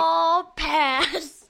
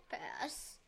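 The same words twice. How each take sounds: First: Loud, emphatic verdict. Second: Whispered echo of the verdict; whispering. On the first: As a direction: call it out firmly. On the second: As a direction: drop it to a whisper. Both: Real, not acted. Playful verdict said twice.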